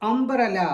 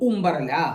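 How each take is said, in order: First: The first vowel is a short 'uh' sound. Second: The first vowel is an 'oo' sound. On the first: The speaker calls it right. "Vowel സൗണ്ടായിട്ട് എ എന്ന് ഉപയോഗിക്കാറുണ്ട്" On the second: The speaker calls it wrong. "നോട്ട്"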